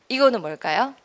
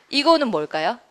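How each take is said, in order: The two takes are said the same way.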